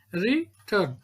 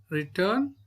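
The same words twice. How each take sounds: First: "Return" broken as re-turn; split into syllables. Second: Said in the usual way. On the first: Shown as a demonstration. Teacher counting to two, "Return" said beat by beat. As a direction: say "Return" with a gap between its beats.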